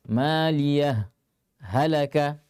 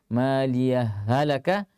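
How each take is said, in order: First: A brief stop without breath splits the words. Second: The two h sounds merge with no break. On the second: "langsung idgham, artinya meleburkan hak yang pertama ke dalam hak yang kedua"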